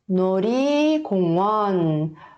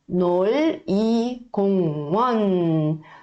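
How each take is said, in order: First: The middle consonant sounds like an R. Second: The middle consonant sounds like an L. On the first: "quando a gente for ler mais rápido, a gente não vai pronunciar com som de L, e sim com som de R" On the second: "se a gente for ler um por um, seria nol-i 공원"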